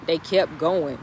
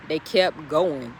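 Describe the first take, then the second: First: Said in the usual way. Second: Slow emphatic repeat. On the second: Shown as a demonstration.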